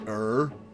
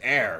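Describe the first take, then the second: First: The vowel sounds like her without h. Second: The vowel sounds like the word air. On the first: The speaker calls it wrong. "not er" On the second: The speaker calls it right. "E R R is pronounced air"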